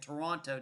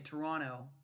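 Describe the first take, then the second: First: It is said the American way. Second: It is said the Canadian way.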